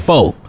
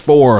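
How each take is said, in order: First: The final r sound is dropped. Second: The final r sound is clearly pronounced. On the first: This is the speaker's own natural way. "I say faux" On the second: This is the standard way. "the King's English 4 o'clock"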